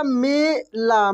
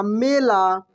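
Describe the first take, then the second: First: मेला stretched very slowly, the e held; drawn-out spelling-out. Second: Said in the usual way. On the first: Shown as a demonstration. Teacher to pupils, drawing the word out slowly. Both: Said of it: "क्या हो जाएगा?".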